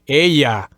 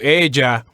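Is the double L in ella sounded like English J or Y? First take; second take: Y; J. First: The double L sounds like an English Y. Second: The double L sounds like a light English J. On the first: "kind of a Y sound, as in ella" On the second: "as opposed to ella"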